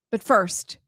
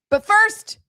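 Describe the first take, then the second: First: Said in the usual way. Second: High loud "But first"; excited. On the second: Shown as a demonstration. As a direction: announce "But first" brightly.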